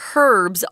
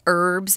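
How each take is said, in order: First: The word is said the British way. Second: The word is said the American way. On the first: This is how people in the UK say it. "if you go over to the UK, you're going to hear herbs only" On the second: This is how most of America says it. "I think the majority of America says herbs"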